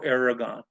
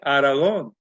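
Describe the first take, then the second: First: The name is pronounced the English way. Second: The name is pronounced the Spanish way. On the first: This is the family's own chosen pronunciation. "we chose to say it our way" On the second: This is how people of Spanish descent expect it. "you're supposed to say it Aragon"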